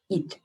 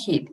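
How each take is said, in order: First: The word starts directly with a vowel. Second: The word starts with an h sound. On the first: The speaker calls it right. "It's eat" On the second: The speaker calls it wrong. "It's not heat"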